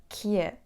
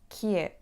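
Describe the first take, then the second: Both takes have the same delivery.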